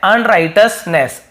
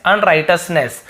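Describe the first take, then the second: First: अनराइटसनेस said slowly, each syllable spelled out; slow teacher demo of अनराइटसनेस; slow careful pronunciation. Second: Said in the usual way. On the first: Shown as a demonstration. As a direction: stretch out अनराइटसनेस syllable by syllable for the learner. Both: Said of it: "इसका सही उच्चारण है".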